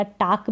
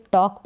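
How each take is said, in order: First: टाक with an open aa; open aa mispronunciation. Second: टॉक with a rounded aw and no L; rounded aw, silent L. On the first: English teacher showing another mistake, open-aa टाक. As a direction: say टाक as "taak", vowel unrounded. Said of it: "टाक भी नहीं पढ़ेंगे". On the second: English teacher modelling talk, aw-vowel टॉक. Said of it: "टॉक पढ़ेंगे". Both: Shown as a demonstration.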